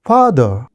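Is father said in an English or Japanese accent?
English. It is said with an English-like pronunciation.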